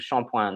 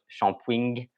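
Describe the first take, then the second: First: The word ends without an 'ing' sound. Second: The word ends with an 'ing' sound. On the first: "this one is pronounced shampoing" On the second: "pronounced with the ing at the end"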